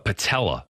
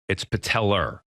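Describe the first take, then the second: First: The word ends in a plain vowel, no R. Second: The word ends with an R sound. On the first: The speaker calls it wrong. "it's not uh, patella" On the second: The speaker calls it right. "there's an R in it"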